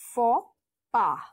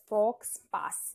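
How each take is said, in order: First: The x and s sounds are silent. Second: The x and s sounds are pronounced. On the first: The speaker calls it right. "the X and the S are silent" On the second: The speaker calls it wrong. "You will pronounce it as fox pass, but it's wrong"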